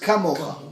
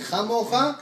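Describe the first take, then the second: First: It starts with a hard k sound. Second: It starts with a raspy kh sound. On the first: It was said by people with a lot of energy. "the other one says kamocha" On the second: It was said by someone without energy. "One is saying chamocha"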